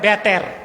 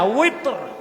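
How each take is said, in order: First: The word begins with a b sound. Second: The word begins with a w sound. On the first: The speaker calls it wrong. "আমাদের দেশে মৌলভী সাহেবরা বলে বেতের" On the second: The speaker calls it right. "বেতের না ওয়েতর"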